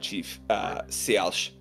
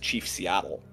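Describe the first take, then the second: First: The name has a native-like pronunciation. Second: The name has its common English pronunciation. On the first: This is closer to the original form of the name. "a little closer to the original pronunciation" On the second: This is the form commonly used today. "what is now commonly known as"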